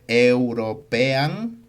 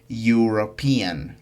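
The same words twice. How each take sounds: First: The start is read letter by letter. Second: The start is a 'you' sound. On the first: "Se escribe European" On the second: "pero se pronuncia European"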